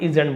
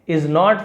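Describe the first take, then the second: First: It is said as one contracted word. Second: It is said as two full words.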